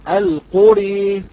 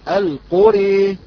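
First: The final vowel leans fully toward e. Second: The same.

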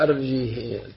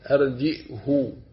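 First: No glottal stop; the h carries a long 'ee'. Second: A glottal stop; the h carries an 'oo'. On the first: "بغير همس، إلا أن ورشا والكسائي أشبعا كسرتها" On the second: "بهمزة ساكنة والهاء مضمومة"

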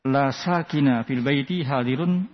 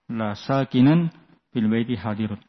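First: The word after 'la' ends in a bare '-a'. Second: The word after 'la' ends in '-an'. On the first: The noun carries a plain fathah without nunation. The speaker calls it wrong. "qulna hadha khata. Kalau dibaca dengan fathah tanpa nasab, keliru" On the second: The noun carries the accusative ending with nunation. The speaker calls it right. "Ini mansub"

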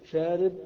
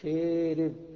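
First: The long vowel is a plain open 'a'. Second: The long vowel is tilted toward 'e'.

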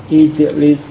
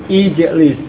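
No difference in how they are said.

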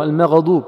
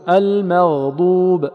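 First: The gh sound ends with a bouncing release. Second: The gh sound is held smoothly for full length. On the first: The speaker calls it wrong. "البعض يقلقله" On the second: The speaker calls it right. "المغضوب يعطى زمنه فقط"

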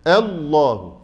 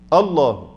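First: The opening glottal stop sounds overly thinned and strained. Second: The opening glottal stop sounds heavy and backed. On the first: "هو بالغ في نطق الهمزة حتى أخرجها عن حدها الصحيح" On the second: "فخم الهمزه لتفخيم اللام بعدها، وهذا خطا"

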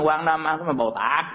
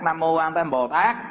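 First: The syllables are slurred and run together. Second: Every syllable is pronounced clearly and distinctly. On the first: The speaker calls it wrong. "chứ không được" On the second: The speaker calls it right. "Tuy là mình nhanh thì nhanh nhưng mà từng chữ rõ ràng"

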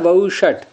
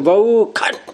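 First: The retroflex sh sound is pronounced as sh. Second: The retroflex sh sound is pronounced as kh. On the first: This is the actual form of the word. "शब्द क्या है वऊ षट" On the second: This follows a southern ritual tradition. "शाह को ख बोलने की मूर्धन्य षकार को, तो ऐसे बोलेंगे कि वऊ खट"

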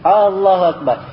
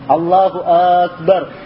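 First: The opening vowel of Allahu is drawn out long. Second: The opening vowel of Akbar is drawn out long. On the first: It asks whether God is the greatest. "alif di Allah yang panjang" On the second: It asks of God whether he is great. "ada sebagian orang alif di Akbarnya panjang"

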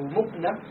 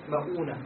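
First: The first vowel is u, with no long vowel after. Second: The first vowel is a, with a long u after. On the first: "أو مؤنة بالضم" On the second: "إذا قلنا مؤونة فتح الميم"

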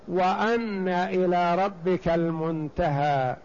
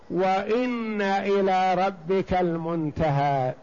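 First: The first word is said with an 'a' vowel. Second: The first word is said with an 'i' vowel. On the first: It continues the preceding statements as part of them. "بفتح الهمزة" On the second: It begins a new, separate statement. "بكسر الهمزة"

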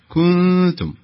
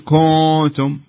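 First: The nasal sound is light and lower. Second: The nasal sound is heavy and raised. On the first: The speaker calls it right. "لا كنتم" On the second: The speaker calls it wrong. "ما تقول كنتم"

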